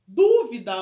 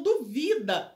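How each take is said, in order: First: Dúvida with a loud first syllable DÚ; stress on antepenultimate. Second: Duvida with the middle syllable VI punched; stress on penultimate. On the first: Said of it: "ela é uma proparoxítona". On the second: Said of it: "duvida é paroxítona". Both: Shown as a demonstration.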